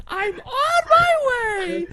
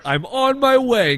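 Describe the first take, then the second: First: Put-on high, slow, crying little kid shout; little kid's voice. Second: Lightly voiced little kid, higher and slow; a hint of a small child reading; toddler's voice. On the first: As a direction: wail it like a whiny toddler. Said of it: "in, like, this little kid's voice". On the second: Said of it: "like, a ten-year-old toddler's voice".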